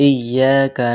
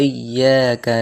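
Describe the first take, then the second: The two takes are said the same way.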